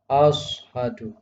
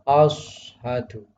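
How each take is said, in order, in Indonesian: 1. Konsonan pertama adalah s emfatik tebal. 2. Konsonan pertama adalah s emfatik tebal.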